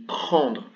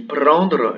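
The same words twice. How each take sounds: First: "prendre" with the normal throaty French r; "prendre" with back r; French throat r. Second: "prendre" with a trilled tongue-tip r; "prendre" with rolled r. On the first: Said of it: "Mais si on dit prendre". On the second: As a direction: roll the r in "prendre". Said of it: "sauf si on roule les R". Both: Shown as a demonstration.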